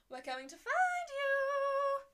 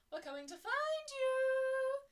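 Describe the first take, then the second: First: High, slow, loud taunting chant; sing-song taunt. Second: Sing-song taunt. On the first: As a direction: taunt like a playful stalker. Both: Acted. Romans calling out.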